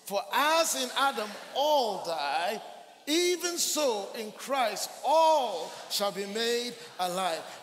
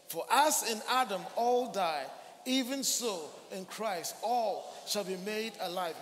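First: It is said with strong, energetic emphasis. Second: It is said plainly, without extra emphasis.

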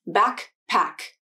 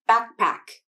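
First: The K sound has a full release before the P. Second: The K sound is held with no release before the P. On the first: The speaker calls it wrong. "a fully released K consonant" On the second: The speaker calls it right. "an unreleased K consonant"

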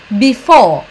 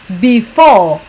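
Both takes have the same delivery.

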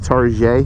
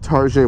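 First: Target is pronounced in a fancy, elevated way. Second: Target is pronounced the ordinary, plain way.

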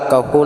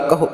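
First: The word ends with an o vowel. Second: The word ends with a short u vowel. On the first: The speaker calls it wrong. "ਹੋੜਾ ਲਗਾ ਕਰਕੇ ਕਹੋ ਨਹੀਂ ਕਰਨਾ" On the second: The speaker calls it right. "ਔਂਕੜ ਲਗਾ ਕਰਕੇ ਕਹੋ"

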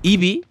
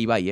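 First: The name ends with an 'ee' sound. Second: The name ends with an 'eye' sound. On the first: The speaker calls it wrong. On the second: The speaker calls it right.

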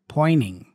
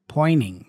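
First: The T after the N is dropped. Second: The T after the N is dropped.

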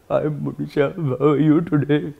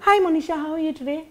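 First: It is said in an old man's voice. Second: It is said in a young man's voice.

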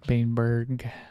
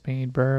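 First: The name ends with a hard G sound. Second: The name ends without a G sound. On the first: "The hard G" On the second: "with like a silent G"

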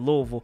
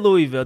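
First: It is said the local Kentucky way. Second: It is said the way outsiders say it.

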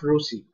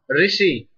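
First: The vowel after the R sounds like 'u'. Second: The vowel after the R sounds like 'i'. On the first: The speaker calls it wrong. "Not Rusi" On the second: The speaker calls it right.

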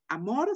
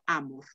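First: The stress is on the last syllable. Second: The stress is on the first syllable. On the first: This is the Spanish way of saying it. The speaker calls it wrong. "este no va a ser amor" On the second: This is the Latin way of saying it. The speaker calls it right. "sino amor"

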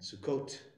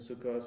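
First: The word ends with a t sound. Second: The word ends with an s sound. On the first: "a Hebrew Israeli style pronunciation"

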